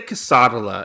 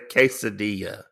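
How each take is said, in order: First: The word is pronounced in an altered, nonstandard way. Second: The word is pronounced in the usual standard way. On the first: This is the speaker's own habitual way of saying it. The speaker calls it wrong. "I say quesadilla" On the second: This is how it is normally said. The speaker calls it right. "instead of quesadilla"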